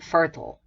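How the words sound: It is said with an American pronunciation. "in red American"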